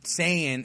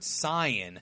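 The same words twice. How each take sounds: First: It is said the English dub way. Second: It is said the Japanese-based, purist way. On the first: This is the form the English dub uses. "the English dub way that they, they pronounce it" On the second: This is the form purists prefer. "which is the accurate way to pronounce it"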